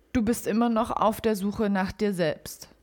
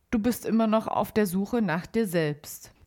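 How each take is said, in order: No difference in how they are said.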